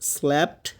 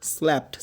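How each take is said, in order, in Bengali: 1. স্বরধ্বনিটি 'cat' শব্দের 'a'-এর মতো শোনায়। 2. স্বরধ্বনিটি 'cat' শব্দের 'a'-এর মতো শোনায়।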